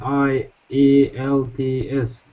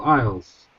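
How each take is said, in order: First: Each letter is said separately. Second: It is said as a single word. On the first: The speaker calls it wrong. "We are not talking I E L T S" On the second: The speaker calls it right. "We are reading it as a one word"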